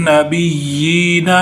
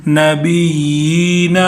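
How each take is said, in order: The two takes are said the same way.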